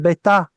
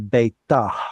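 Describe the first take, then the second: First: The word ends on a plain open vowel. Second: The word ends with an audible breathy h sound. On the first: This is how people say it today. "They'll say beta" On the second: This is the original pronunciation. "even though that's how it was originally pronounced"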